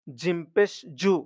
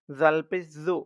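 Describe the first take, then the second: First: "জু" with a firm, hard J. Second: "জু" softened like English th in "this"; soft, tongue out. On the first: Teacher contrasting four similar letters, "জু" with a very hard J. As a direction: press hard on the J of "জিম পেশ জু". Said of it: "খুব শক্ত হবে". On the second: Teacher contrasting four similar letters, "জু" soft with tongue slightly out. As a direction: let the tongue come slightly out on "জাল পেশ জু". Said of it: "নরম হবে, জিহ্বা একটু বাইরের দিকে". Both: Shown as a demonstration.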